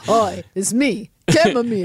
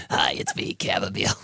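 First: Chamomile voice. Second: Hushed, whispery tea character; chamomile voice. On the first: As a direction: drag it out in a funny voice. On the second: Chamomile tea saying hi, hushed character voice. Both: Acted. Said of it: "is that the voice?".

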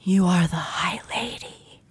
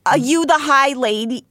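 First: Hushed, breathy whisper; an eerie whispered murmur; soft echoing dream voice. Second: High, squeaky put-on voice; a strained high creature voice. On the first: Acted. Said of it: "I'll do the not Snooki". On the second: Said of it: "I forget her voice".

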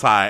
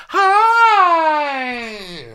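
First: Said in the usual way. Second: Very high, loud, long-held squeal; hammed-up high squeal, stretched right out; squealed mock greeting. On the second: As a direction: shriek the greeting like a whole gushing group. All the women greeting the officer.

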